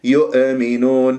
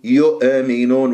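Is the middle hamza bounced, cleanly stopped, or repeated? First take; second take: bounced; bounced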